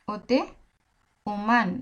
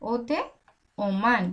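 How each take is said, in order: Both takes have the same delivery.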